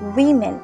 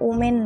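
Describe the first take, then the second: First: The word begins with a 'wi' sound. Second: The word begins with an 'o' sound. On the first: The speaker calls it right. "উচ্চারণ করবে উইমেন" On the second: The speaker calls it wrong. "এটা ওমেন নয়"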